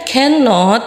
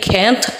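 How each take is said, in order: First: The word is said in its full form. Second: The word is said in a shortened form. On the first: "kalau dipanjanginnya kan cannot" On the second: "Kalau disingkatnya jadi can't"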